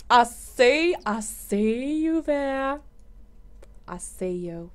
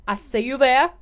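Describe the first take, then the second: First: Drawn-out playful taunt; slow teasing sing-song. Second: Said in the usual way. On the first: Pretend. Teasing a Sim she spots, slow and playful. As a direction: stretch it out like you're spying on them.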